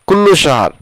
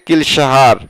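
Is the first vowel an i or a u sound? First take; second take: u; i. First: The first word has a u vowel. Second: The first word has an i vowel. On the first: The speaker calls it wrong. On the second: The speaker calls it right.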